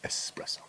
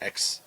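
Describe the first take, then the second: First: The word begins with an 'es' sound. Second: The word begins with an 'ex' sound. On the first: The speaker calls it right. "it's espresso" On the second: The speaker calls it wrong. "It's not X"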